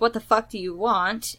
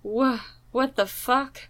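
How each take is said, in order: First: It is said in an angry, commanding tone. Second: It is said as a frightened, stammering whimper.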